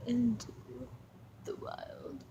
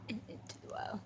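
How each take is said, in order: First: Hushed, breathy "Into the wild"; dramatic whisper. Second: Barely voiced "And into the wild"; soft dramatic whisper. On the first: Pretend. Filming the dog, whispering a dramatic title. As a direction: whisper it like a trailer. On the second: Filming the dog, whispered dramatic title. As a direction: let it fade to a whisper.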